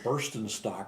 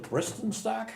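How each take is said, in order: First: The first syllable sounds like 'burst'. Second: The first syllable sounds like 'brist'. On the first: The speaker calls it wrong. "for years I pronounced it Burstenstock or something like beer" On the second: The speaker calls it right. "but it's really Bristenstock"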